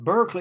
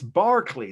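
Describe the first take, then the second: First: The first syllable sounds like 'bur'. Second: The first syllable sounds like 'bar'. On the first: The speaker calls it wrong. "you can't even pronounce the word" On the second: The speaker calls it right. "That's how they say the word Berkeley in England"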